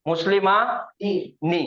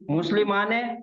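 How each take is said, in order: First: The final vowel sounds like 'ee'. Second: The final vowel sounds like 'e'. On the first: The speaker calls it right. "नी" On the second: The speaker calls it wrong. "मुस्लिम माँ ने गलत"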